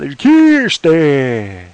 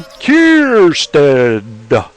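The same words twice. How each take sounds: First: The final D sound is dropped. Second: The final D sound is clearly pronounced. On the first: The speaker calls it wrong. "A lot of people don't do that. ... Where's my D?" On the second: The speaker calls it right. "He made sure to enunciate the D"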